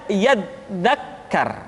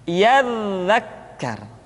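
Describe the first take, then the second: Both takes have the same delivery.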